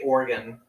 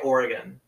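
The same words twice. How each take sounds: First: The middle E vowel is dropped. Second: The middle E vowel is pronounced. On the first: The speaker calls it wrong. "You say Oregon" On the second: The speaker calls it right. "I pronounce the E"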